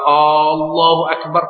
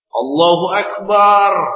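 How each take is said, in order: First: The opening vowel is drawn out long. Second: The final vowel of Akbar is drawn out. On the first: It asks whether God is really the greatest. "Itu dia ragu, apakah betul Allah Maha Besar?" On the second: It likens God to drums. "Allah laksana gendang"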